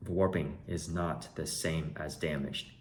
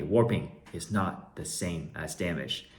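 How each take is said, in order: First: Slow, softer, deliberate statement; emphatic lesson. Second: Slow chant for the class to repeat; teaching viewers a rule, slowly and deliberately; repeat-after-me recital. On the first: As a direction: spell it out like a rule. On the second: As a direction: say it like a lesson to recite. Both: Shown as a demonstration. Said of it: "Repeat after me".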